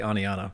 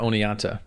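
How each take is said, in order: First: The T sound in the name is dropped. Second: The T sound in the name is pronounced. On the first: It is how a Southern speaker says it. "if you're in the South, you don't even pronounce the T" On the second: It is the usual way of saying it. "Instead of"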